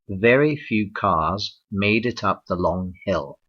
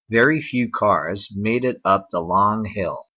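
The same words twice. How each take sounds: First: A British accent; the R in cars is silent. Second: An American accent; the R in cars is pronounced. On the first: "in the standard accent, uh, known as R P, or received pronunciation" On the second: "in standard American English"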